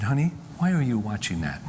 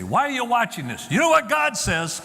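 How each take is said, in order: First: Casual, gentle. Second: High, raised-voice preachy parent; hammed-up accusing mother; mock scolding. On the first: Retold or imitated. Mother gently asking her son about the video, casually. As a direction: ask without any accusation. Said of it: "just casually". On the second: Parent who handles it wrong confronting the son, scolding. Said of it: "didn't say".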